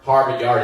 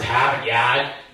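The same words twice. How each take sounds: First: The R sounds are clearly pronounced. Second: The R sounds are dropped, Boston style.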